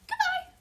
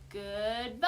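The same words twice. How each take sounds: First: It is said very fast. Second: It is said very slowly.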